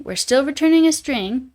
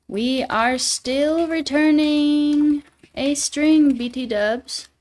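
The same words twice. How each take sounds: First: Said in the usual way. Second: Slow, higher mock British accent; a playful hammed-up British read. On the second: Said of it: "A little bit of Brit salient?".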